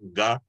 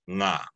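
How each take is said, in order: First: It begins with a hard g sound. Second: It begins with a nasal ng sound. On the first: The speaker calls it wrong. "you don't want to do the ga. It's like instead of saying it like it's a C" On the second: The speaker calls it right. "you're gonna say it like it's a more of the N"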